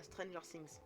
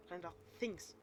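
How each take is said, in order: First: "Stranger Things" with a French accent; French-accented English. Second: "Stranger Things" redone with English th; corrected English pronunciation. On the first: Real, not acted. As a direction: say "Things" as "Sings", French-style. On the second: Shown as a demonstration. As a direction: stress "Things" with a careful English th. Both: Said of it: "Excusez mon accent anglais".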